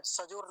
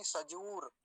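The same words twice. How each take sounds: First: सजूर said as "sajor", short o; सजूर with its oo slackened to o; wrong vowel. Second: सजूर with a clear, held oo; सजूर as "sajoor", oo drawn out; correct long ū. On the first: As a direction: show the mistake, सजूर with o for long oo. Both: Shown as a demonstration. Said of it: "सजूर नहीं".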